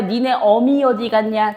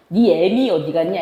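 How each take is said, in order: First: 어미 with a plain 어 vowel, slowly; slow textbook pronunciation of 어미; standard 어미. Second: 어미 shifted to 애미, ae-mi; grandmother's everyday 애미; dialectal 애미. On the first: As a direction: say 어미 unshifted, as written, eo-mi. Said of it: "어미라고 발음 안 할걸?". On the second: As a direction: say 애미 with a fronted 애 vowel. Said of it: "할머니 뭐라고 발음해?". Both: Shown as a demonstration.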